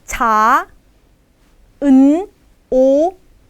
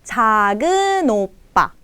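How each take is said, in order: First: Each syllable is read separately, as written. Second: The final consonant links into the next syllable. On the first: "ini tulisannya 작은 오빠" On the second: "tapi dibacanya 작은 오빠"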